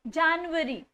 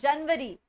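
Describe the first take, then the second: First: The word ends with a 'yuary' sound. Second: The word ends with a 'vari' sound. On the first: The speaker calls it right. "वरी नहीं आएगा last में, it's January" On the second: The speaker calls it wrong. "not January"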